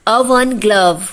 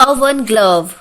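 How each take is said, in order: No difference in how they are said.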